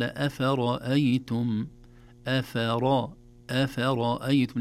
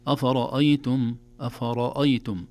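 First: أفرأيتم with a heavy ra and all other letters light; correct recitation. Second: أفرأيتم with the whole word full-mouthed, the heaviness spreading past the ra; wrong recitation of أفرأيتم; wrong, all heavy. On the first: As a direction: keep only the ra in أفرأيتم full-mouthed. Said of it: "قال". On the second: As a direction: let the heavy ra darken the letters around it in أفرأيتم. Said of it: "لا نقول". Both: Shown as a demonstration.

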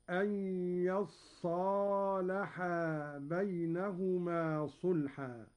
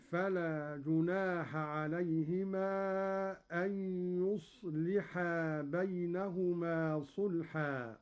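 First: يصالحا as "yassaalahaa", open ya and doubled s; doubled sad, long alif. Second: Said in the usual way. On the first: Shown as a demonstration. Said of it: "بفتح الياء وتشديد الصاد بعدها ألف".

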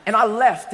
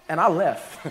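First: Said in the usual way. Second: Says it through a laugh; chuckling at his own walkout. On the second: Real, not acted. Pastor laughing at his own story to the congregation, chuckling.

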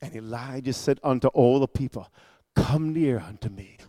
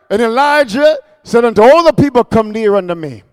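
First: Very soft, low scripture delivery; hushed reading. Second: Full-voiced proclamation. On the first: Acted. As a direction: draw listeners in with a low hush. Hushed first reading before the shouted praise. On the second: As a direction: proclaim the verse out loud. Repeats the verse in full voice.

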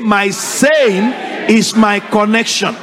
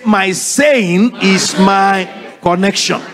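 First: Slow, drawn-out repeat again; slow congregational echo. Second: Slow, drawn-out repeat; slow congregational echo. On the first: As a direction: chant it back slowly. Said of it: "Say it again". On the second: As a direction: say it slowly after the preacher. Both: Shown as a demonstration.

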